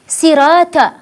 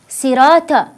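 The two takes are said the same way.

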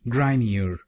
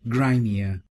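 First: It is said in an American accent. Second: It is said in a British accent.

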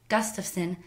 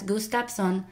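First: It is said in a standard American accent. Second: It is said in a Filipino accent. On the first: The speaker calls it right. "my Swedish last name" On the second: The speaker calls it wrong. "as Gustafson, until my teacher corrected me"

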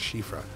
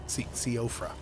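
First: The name begins with a 'sh' sound. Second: The name begins with a 'see' sound. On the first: The speaker calls it right. "I think it's Shifra" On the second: The speaker calls it wrong. "That's not how we pronounce it, right?"

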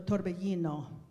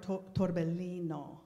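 First: The double L is said as a Spanish Y-like sound. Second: The double L is said as a long L. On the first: The speaker calls it right. "So torbellino" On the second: The speaker calls it wrong. "So that would be Italian pronunciation with a double L"

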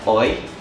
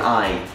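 First: The vowel sounds like 'oy'. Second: The vowel sounds like 'eye'. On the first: "It's more like oi" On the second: "So you would normally say I, like an I"

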